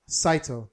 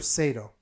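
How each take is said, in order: First: "Saito" said SIGH-toe; corrected name. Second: "Sato" said SAY-toe; mispronounced name. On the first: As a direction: say "Saito" with first syllable like "sigh". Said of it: "Uh, Saito". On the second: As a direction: say "Sato" with first syllable like "say". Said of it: "I believe I'm saying it right". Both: Real, not acted.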